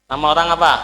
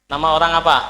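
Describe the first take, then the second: No difference in how they are said.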